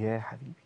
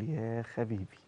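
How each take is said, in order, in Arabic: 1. تبدأ الكلمة بصوت h نفسي حلقي. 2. تبدأ الكلمة بصوت kh قاسٍ يشبه الكشط. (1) "يعني يا حبيبي" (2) "خلى خواجه يقول ايه، يقول يا خبيبي"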